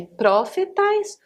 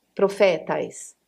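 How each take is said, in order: First: "profetais" stressed on the first syllable, PRO; antepenultimate stress. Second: "Profetais" stressed on FE, drawn out slowly; penultimate stress. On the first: Teacher offering an accent option, "profetais" stressed on PRO. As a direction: slowly punch PRO in "profetais". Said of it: "a antepenúltima". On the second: Teacher giving an accent option, "Profetais" stressed on FE. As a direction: lean on the open FE in "Profetais". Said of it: "o acento na penúltima". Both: Shown as a demonstration.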